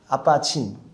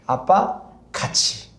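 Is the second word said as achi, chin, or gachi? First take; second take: chin; gachi. First: The second word is clipped to a single syllable. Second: The second word is said in full, two syllables. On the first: A small child is trying to say it. The speaker calls it wrong. "발음이 좀 안 돼가지고 아빠친 이렇게" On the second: This is the intended phrase, 'together with dad'. The speaker calls it right. "아빠 같이 해요. 라는 뜻이에요"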